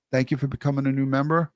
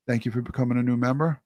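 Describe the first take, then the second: No difference in how they are said.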